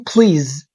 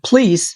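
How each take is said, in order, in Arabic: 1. الكلمة تنتهي بصوت z. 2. الكلمة تنتهي بصوت s. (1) "please بالزي" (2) "please بالاس"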